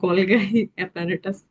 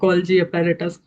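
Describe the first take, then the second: First: The second g is hard, like in go. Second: The second g is soft, like j. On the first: "मैंने कुछ बच्चों को बोलते हुए सुना था" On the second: "आप खुद से बोल सकते हैं लाइक"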